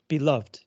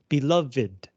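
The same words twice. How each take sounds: First: The ending is one syllable, 'loved'. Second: The ending is two syllables, 'lov-ed'. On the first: It works as a past participle. "as a past participle, you don't say the last E" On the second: It describes someone many people love. "as an adjective, you do say the last E"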